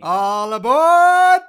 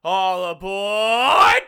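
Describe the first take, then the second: First: High, very loud, slow All aboard; loud conductor call. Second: High, loud, drawn-out train call; loud conductor call. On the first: Pretend. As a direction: holler it across the platform. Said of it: "Do it one more time". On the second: Shown as a demonstration. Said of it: "give me your best "All aboard".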